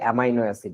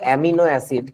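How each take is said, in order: First: The second syllable of amino has an 'eye' sound. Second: The second syllable of amino has an 'ee' sound. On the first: "কেউ কেউ বলে এটাকে" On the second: "তুমি বলতেছো"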